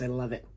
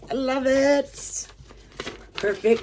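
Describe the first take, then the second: First: Said in the usual way. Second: Real delighted gush; high excited squeal. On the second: Real, not acted. Admiring the key necklace.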